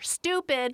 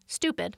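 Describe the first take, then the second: First: The word is said more loudly. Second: The word is said at normal loudness. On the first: "I'll maybe say it louder" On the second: "dare I say it again"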